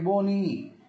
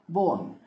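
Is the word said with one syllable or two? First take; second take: two; one. First: The word is said with two syllables. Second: The word is said with one syllable. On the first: The speaker calls it wrong. "it's not like bony" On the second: The speaker calls it right. "Bone, one"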